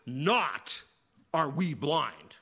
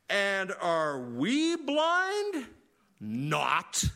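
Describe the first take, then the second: First: "Not" hit loud and first, then "are we blind" slow; stress on Not. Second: Slow, stretched mock-indignant "And are we blind? Not."; indignant Pharisees. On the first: Shown as a demonstration. Preacher showing the literal word order, "Not" stressed first. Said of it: "the "not" is first". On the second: Preacher mocking the Pharisees' reply, slow and indignant. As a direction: drag it out like a smug scoffer. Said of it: "that's about as contemporary as I get sometimes with idioms".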